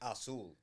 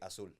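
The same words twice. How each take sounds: First: The first vowel is full and drawn out. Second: The first vowel is nearly skipped. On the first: "you say azul" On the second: "I say azul. kind of skip the A"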